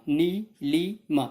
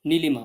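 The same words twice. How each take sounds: First: Nilima broken slowly as नी, लि, मा; pauses after नी and लि; split into three syllables. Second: Said in the usual way. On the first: Shown as a demonstration. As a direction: say Nilima in three separate drawn-out beats. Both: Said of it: "तीन बार आप इसको split कर सकते हो".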